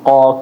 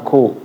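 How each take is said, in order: First: The consonant is released without any puff of air. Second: The consonant is released with a puff of air. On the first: The speaker calls it right. "jangan dikasih aliran angin" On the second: The speaker calls it wrong. "kaknya ini kan keluar angin"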